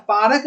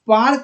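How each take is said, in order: First: "पारक" in two syllables, paa-rak; extra vowel. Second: "पार्क" as one syllable, paark; joined consonants. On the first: Teacher rejects the misspelt word, two-syllable "पारक". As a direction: sound a vowel between r and k in "पारक". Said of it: "पारक नहीं होता है". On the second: Teacher corrects the misspelt word, one-syllable "पार्क". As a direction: run r straight into k in "पार्क". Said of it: "पार्क होता है". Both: Shown as a demonstration.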